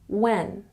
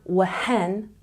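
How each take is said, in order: First: The word starts with a plain W, no H. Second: An audible H sound comes before the W. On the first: The speaker calls it right. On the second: The speaker calls it wrong.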